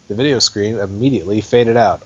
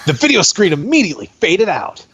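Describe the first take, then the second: First: It is read in a flat, plain voice. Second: It is read with loud, excited emphasis.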